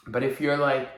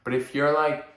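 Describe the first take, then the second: No difference in how they are said.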